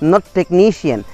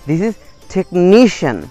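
First: The stress falls away from the syllable before -cian. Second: The stress falls on the syllable before -cian. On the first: The speaker calls it wrong. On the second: The speaker calls it right.

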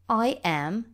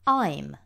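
First: It is said as two separate full words. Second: It is said as one contracted syllable. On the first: This is the form typical of written English. "questa è la forma estesa, tipica dell'inglese scritto" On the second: This is the form used in everyday spoken English. "Nell'inglese parlato invece si usa la forma contratta"

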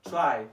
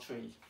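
First: The vowel sounds like the one in 'eye'. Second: The vowel sounds like the one in 'see'. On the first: The speaker calls it right. "Try, okay, in computer" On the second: The speaker calls it wrong. "it pronounced as try, not tree"

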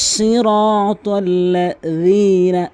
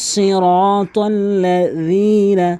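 No difference in how they are said.

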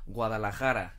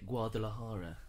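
First: It is said with a Spanish pronunciation. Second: It is said with an English reading pronunciation. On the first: The speaker calls it right. "in Spanish" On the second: The speaker calls it wrong. "if you see that written, we would say"

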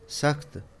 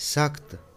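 The two takes are said the same way.

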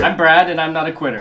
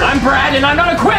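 First: It is said at a normal volume. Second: It is said loudly and forcefully.

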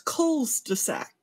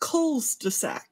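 First: The s sound comes right after 'cul'. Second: The same.

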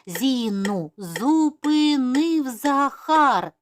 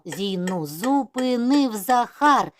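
First: It is spoken at a moderate, quicker pace. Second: It is spoken at a fast pace. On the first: "А зараз вже швидше" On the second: "І ще швидше"

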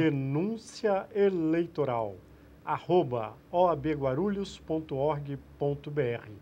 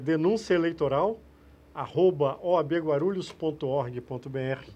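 First: It is said slowly and deliberately. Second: It is said at normal, quicker speed.

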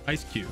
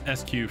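First: The name starts with an 'ice' sound. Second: The name starts with an 'ess' sound. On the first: The speaker calls it right. "I realized it's just Ice Q" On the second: The speaker calls it wrong. "I always read it SQ in my head. I never thought that I was saying it wrong"

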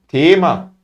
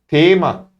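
The two takes are said the same way.

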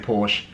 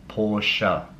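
First: The word is said with one syllable. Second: The word is said with two syllables. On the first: The speaker calls it wrong. "it annoys you the way that I say Porsche" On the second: The speaker calls it right. "I know it's a two-syllable word"

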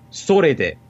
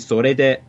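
First: The pitch goes down in the word. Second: The pitch goes up in the word. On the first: The speaker calls it wrong. "I go down instead of up" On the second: The speaker calls it right. "it should be sore de"

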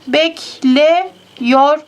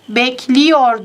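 First: The vowel before -yor is an e. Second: The vowel before -yor is an i. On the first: The speaker calls it wrong. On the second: The speaker calls it right. "diyoruz. Buradaki e i'ye dönüştü"

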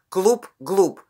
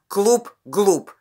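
No difference in how they are said.

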